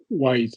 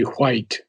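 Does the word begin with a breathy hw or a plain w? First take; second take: plain w; breathy hw. First: It begins with a plain w sound. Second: It begins with a breathy hw sound. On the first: This is the newer, current British pronunciation. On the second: This is the older style of pronunciation.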